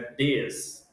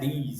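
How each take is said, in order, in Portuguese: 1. A vogal é curta, como em 'this'. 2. A vogal é longa, como em 'these'. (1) "é this" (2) "aqui não é this"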